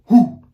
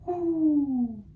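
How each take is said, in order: First: Loud, punchy owl hoot; a big hoo from the belly; Papa Owl hoot. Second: High, sung owl hoo; Mama Owl hoot. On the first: Teacher leading class in Papa Owl hoot, loud. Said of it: "Papa Owl ... has the deepest voice". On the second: Teacher modelling Mama Owl's singing voice, high. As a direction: float a high pretty hoo. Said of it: "Mama Owl has a beautiful singing voice". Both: Shown as a demonstration.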